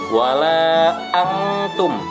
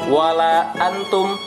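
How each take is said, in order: First: The nasal n sound is held against the palate. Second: The n sound is released quickly, not held. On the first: The speaker calls it right. "lidahnya itu di langit-langit agak ditahan" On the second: The speaker calls it wrong. "Kalau tidak ditahan"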